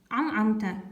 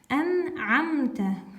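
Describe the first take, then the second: First: The word begins with an 'am' sound. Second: The word begins with an 'an' sound. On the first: The speaker calls it wrong. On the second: The speaker calls it right.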